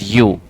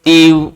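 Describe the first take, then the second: First: The word sounds like 'you'. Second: The word sounds like 'eev'. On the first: The speaker calls it right. "लेकिन इसकी pronunciation जो होती है ना, that is यू" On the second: The speaker calls it wrong. "कोई इसको एव, ईव, वी, बहुत सारे वर्ड प्रोनाउंस करेंगे"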